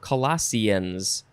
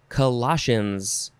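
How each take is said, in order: First: The word ends with 'see-uns', using an s sound. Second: The word ends in a single 'shuns' syllable. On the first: "or Sians"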